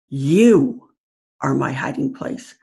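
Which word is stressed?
You. The stress is on "You".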